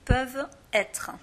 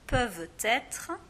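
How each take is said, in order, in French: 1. Le t de peuvent est muet devant être. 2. Le t de peuvent se lie à être. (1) "sans la liaison ça fait peuvent être" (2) "ça c'est la liaison"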